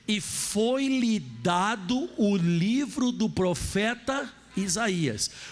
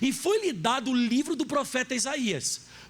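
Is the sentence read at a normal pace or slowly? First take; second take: slowly; normal. First: The sentence is read slowly and deliberately. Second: The sentence is read at a normal pace.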